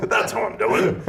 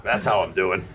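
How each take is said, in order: First: High, laughing mock yell. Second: Said in the usual way. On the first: [name] redoing Rodney's punchline as a laughing yell. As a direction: belt it out while laughing. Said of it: "He yelled it". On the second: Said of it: "And he goes".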